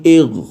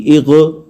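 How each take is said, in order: First: इग ending at once on the ghain, no rebound; इग with the sound ending as soon as the ghain is reached; clean ghain stop. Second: इग with the voice rising again in a qalqala bounce; the wrong way: let इग rebound; इग with an extra echo after the ghain, shown as an error. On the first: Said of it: "लगते ही आवाज़ ख़त्म हो जाएगी". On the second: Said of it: "ये गलत है". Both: Shown as a demonstration.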